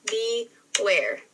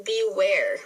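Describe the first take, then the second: First: "Beware" broken into be, ware with a gap; split into syllables. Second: Said in the usual way. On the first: Shown as a demonstration. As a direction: say "Beware" in two separate beats. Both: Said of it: "break down those syllables".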